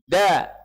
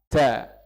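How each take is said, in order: First: The d is firm with no escaping air. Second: The d is weak with air escaping. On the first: The speaker calls it right. "Sandarannya dal itu kuat. Nggak boleh keluar angin" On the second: The speaker calls it wrong. "itu lemah"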